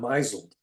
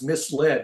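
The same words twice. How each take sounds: First: It is said like 'mizzled', rhyming with 'drizzled'. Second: It is said as 'mis-led', two clear parts. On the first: The speaker calls it wrong. "not misled" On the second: The speaker calls it right. "is to pronounce misled"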